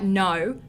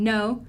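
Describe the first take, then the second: First: "no" with a wide Australian diphthong O; "no" as an Australian says it, O sliding. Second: "no" with a rounded American O; "no" as an American says it, rounded O. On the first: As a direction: say "no" with a gliding Australian vowel. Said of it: "I'm gonna hear that no". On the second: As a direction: say "no" with an American accent. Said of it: "different than an American". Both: Shown as a demonstration.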